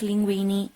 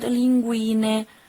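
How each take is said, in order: First: The word ends in an i vowel sound. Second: The word ends in an e vowel sound. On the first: The speaker calls it wrong. "that you always pronounce linguini" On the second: The speaker calls it right. "the vowel E that in Italian is pronounced E at the end"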